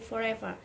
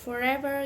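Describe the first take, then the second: First: The final R is dropped, ending in a vowel. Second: The final R sound is pronounced. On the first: "you would say forever" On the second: "instead of forever"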